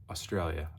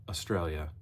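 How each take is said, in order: The two takes are said the same way.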